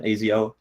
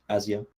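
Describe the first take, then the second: First: "Azio" said as AY-zee-oh; long-a pronunciation. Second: "Azio" said as AZ-ee-oh, softly; short-a pronunciation. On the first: Host comparing team-name versions, "Azio" as AY-zee-oh. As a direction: start "Azio" with the vowel of "day". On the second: Host comparing team-name versions, "Azio" as AZ-ee-oh. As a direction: start "Azio" with the a of "cat". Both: Shown as a demonstration. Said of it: "however you pronounce that".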